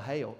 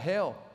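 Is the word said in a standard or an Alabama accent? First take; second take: Alabama; standard. First: It is drawn into two syllables, Alabama style. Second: It is one syllable in a standard accent.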